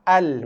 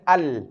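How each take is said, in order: No difference in how they are said.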